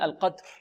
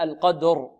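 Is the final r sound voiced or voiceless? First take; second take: voiceless; voiced. First: The final r is voiceless and breathy. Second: The final r is fully voiced. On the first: The speaker calls it wrong. "أما بعض الطلاب يقولون" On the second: The speaker calls it right. "فلابد من إعطائها جهرها، هكذا"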